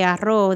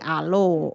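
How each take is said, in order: First: The middle consonant is a trilled r sound. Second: The middle consonant is an l sound. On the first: "if you're going to say arroz" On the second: "They make them L's"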